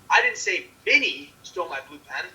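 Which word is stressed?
Minnie. The stress is on the word Minnie. Someone else stole the pen. "That someone else stole the blue pen"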